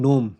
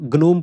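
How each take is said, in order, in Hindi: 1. शब्द की शुरुआत में 'n' की आवाज़ है। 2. शब्द की शुरुआत में कड़ी 'g' की आवाज़ है। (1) "इसको नोम बोलेंगे ना, जी साइलेंट है इसमें" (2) "मैं अगर गलत पढ़ूँगा तो ग्नोम पढ़ूँगा"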